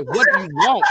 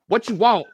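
First: Exasperated dad. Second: Exasperated dad, louder. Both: Retold or imitated.

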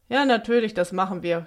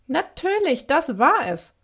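First: Mildly sarcastic agreement, dropping away; mocking. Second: Bright-idea outburst, pitch jumping high; elated realisation. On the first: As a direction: agree with a touch of scorn. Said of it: "spottete er daraufhin". (leicht spöttisch) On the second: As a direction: burst out as the idea hits. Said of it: "Dann jauzte sie auf". (freudiger Geistesblitz) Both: A narrator's reading.

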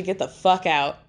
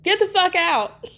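First: Understated mock scream at ordinary pitch; held-back imitation of a yell; retold scream. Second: High-pitched mock scream; shrieky play-acted yell, not full volume; retold scream. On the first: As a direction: quote a scream without raising the voice. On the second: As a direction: send the voice way up, imitating a screamed order. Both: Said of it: "she's screaming at Ashley".

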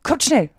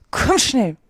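First: Higher-pitched, urgent summons; mildly raised calling voice. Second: Higher, brief urgent summons; pressing call, mildly acted. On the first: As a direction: call out to hurry someone along. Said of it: "rief der Greif". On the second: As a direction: hurry them along. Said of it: "der Greif antwortete nichts als". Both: A narrator's reading.

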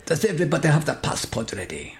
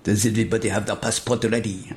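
First: Put-on lightly Italian-sounding Spanish accent; Italian-ish accent. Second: Put-on Spanish accent. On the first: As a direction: try it with an Italian lilt. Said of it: "think Italian". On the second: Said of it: "says in his Spanish accent".

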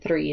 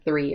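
First: "three" with the R rolled. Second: Said in the usual way. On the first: Shown as a demonstration. Copying the immigrant side of the family, "three" with a rolled R. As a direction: roll the R in "three". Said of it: "they all roll their R's". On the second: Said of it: "instead of three or something".

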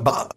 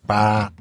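First: Put-on "bar" in a Cockney accent, dropping the t-sound of butter. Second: Put-on "bar" in a Bronx accent, as for butter. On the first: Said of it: "or a Cockney accent". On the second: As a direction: say "bar" like a New Yorker from the Bronx. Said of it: "Spoken in a Bronx accent".

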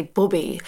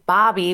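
First: "Bobby" with a short rounded British o; "Bobby" à l'anglaise, o court et arrondi. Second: "Bobby" with an open flat ah, like Barbie without the r; "Bobby" à la canadienne, voyelle ouverte; Canadian Bobby. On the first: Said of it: "but you guys say Bobby". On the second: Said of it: "but we say Bobby". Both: Shown as a demonstration.

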